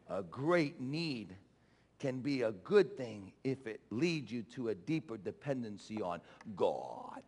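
It is said in a put-on Assemblies preacher voice.

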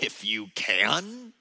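It is said with a sassy, mocking tone.

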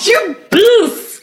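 It is said in a put-on Italian accent.

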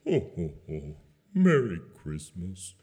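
It is said in a sad, depressed way.

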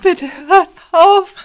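It is said in a breaking voice.

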